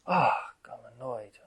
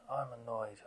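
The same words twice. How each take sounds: First: Loud, slow exasperated 'Ah, I'm annoyed'; exasperated groan. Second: Said in the usual way. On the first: Retold or imitated. Meditator fed up with their own restlessness, slow loud exasperation. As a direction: groan it out like you can't settle. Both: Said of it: "and you're like".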